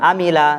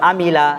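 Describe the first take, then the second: No difference in how they are said.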